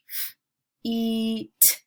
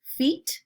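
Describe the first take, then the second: First: "F-, eat" with a long, held ee; roller-coaster word. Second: Said in the usual way. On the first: Shown as a demonstration. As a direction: separate f, then stretch the ee of "feet". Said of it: "putting an emphasis on the middle". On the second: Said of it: "some long vowel sounds".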